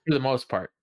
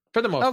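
First: Said in the usual way. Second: "For the most part" pitched much higher, rising at the end; insistent repeat. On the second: Real, not acted. Host qualifying his praise to surprised co-host, "For the most part" high and insistent.

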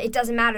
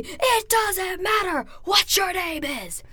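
First: Said in the usual way. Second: Slow, much higher shouted It doesn't matter; The Rock catchphrase shout. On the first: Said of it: "That's where it all came from". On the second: Retold or imitated. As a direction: bellow the catchphrase slowly like to an arena. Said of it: "that's where it all came from".

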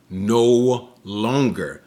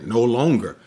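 First: "no longer" drawn out slowly, weight on "no"; a slow, final "no longer"; slow emphatic no longer. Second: Said in the usual way. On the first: Shown as a demonstration. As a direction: lean on "no longer" and stretch it. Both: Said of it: "but no longer".

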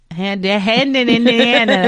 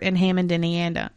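First: Polished TV anchor read; newscaster voice. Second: Said in the usual way. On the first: Pretend. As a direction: announce it like the evening news. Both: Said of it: "That was my newscaster voice".

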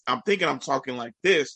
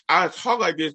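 First: Said in the usual way. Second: Congested, nasal talking; old nasal speech. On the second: Shown as a demonstration. Explaining your hearing problem to friends, nasal demo. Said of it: "I sounded real nasally".

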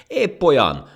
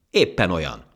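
First: Very high, loud, angry retort; furious. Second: Said in the usual way. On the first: Acted. Ant insisting to the laughing monkey, furious. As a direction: fire back, stung by mockery. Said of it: "mondta dühösen a hangya".

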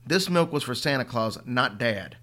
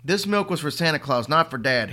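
First: Stubborn. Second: Loud, higher furious roar. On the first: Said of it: "his old stubborn self". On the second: Boy roaring at his mother, furious. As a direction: roar it with every word hammered. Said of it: "Henry roared". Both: Acted.

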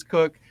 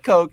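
First: "Cook" with the short vowel of "book"; correct pronunciation. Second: "Coke" with a long o; wrong pronunciation. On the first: Host corrects the guest's surname, "Cook" with a short oo. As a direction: say "Cook" to rhyme with "look". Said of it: "the way that he pronounces his last name". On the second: Host shows the mistaken surname, "Coke" with a long o. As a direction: say "Coke" like the soda. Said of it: "It is not Coke". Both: Shown as a demonstration.

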